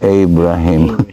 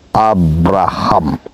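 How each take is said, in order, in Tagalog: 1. Binibigkas ito sa paraang Amerikano. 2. Binibigkas ito sa paraang Espanyol. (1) "Pero ipapronounce mo na Amerikano yan, saka British" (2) "The way we are speaking it in Spanish way or else uh, Bisaya o Tagalog"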